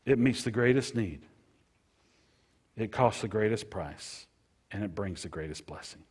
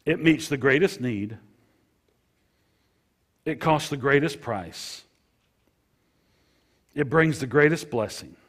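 First: Said in the usual way. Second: Louder and higher, each greatest punched; emphatic preaching. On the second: Shown as a demonstration. Pastor proclaiming forgiveness to his flock, emphatic and loud. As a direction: proclaim it to the back row. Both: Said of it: "Let me share that with you again now".

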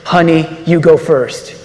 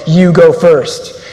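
First: The cowardly husband pretending to be noble, lightly voiced; mock-noble husband to his wife, deadpan; mock heroic. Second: Each word of "You go first" slow and weighty, with a falling stress on go; a preacher's solemn slow charge; slow emphatic command. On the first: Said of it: "those noble, heroic words". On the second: Shown as a demonstration. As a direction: lay down "You go first" as a firm rule, very slowly.

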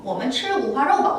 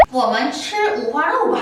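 First: A bit slow, even; slower repeat. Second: Very slow, syllable by syllable; slow model phrase. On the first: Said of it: "어". (다시 조금 천천히) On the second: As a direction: spell it out slowly for learners. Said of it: "우리 어떻게 얘기해요?". (학습자를 위해 아주 천천히 또박또박) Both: Shown as a demonstration.

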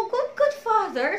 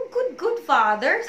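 First: Higher, breaking into tears; crying. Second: Slow, tight, near tears; tearful prayer. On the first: Praying to the Lord, openly crying. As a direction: let the voice crack as you cry it. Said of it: "I was crying na sabi ko". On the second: Praying to the Lord on the verge of tears. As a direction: hold back the tears on each word. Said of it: "Talaga pong umiyak ako that time". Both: Retold or imitated.

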